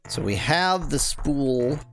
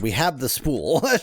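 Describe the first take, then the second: First: It is said tentatively, without conviction. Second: It is said firmly, with full conviction.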